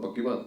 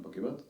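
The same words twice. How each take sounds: First: Said in the usual way. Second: "पक्की बात" said much softer, with a rising end. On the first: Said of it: "कहता". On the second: Retold or imitated. Student answering the warden's suspicion, soft innocent reply. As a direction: answer the warden quietly, on a rise. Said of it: "मैं".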